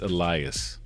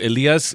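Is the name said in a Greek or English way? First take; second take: English; Greek. First: The name is pronounced the English way. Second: The name is pronounced the Greek way. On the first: "the English uh, version" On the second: "the actual Greek way of saying it"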